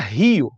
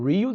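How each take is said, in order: First: It is said with a Brazilian accent. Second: It is said with an American accent. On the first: "A gente fala Rio" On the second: "Eles falam Rio de Janeiro"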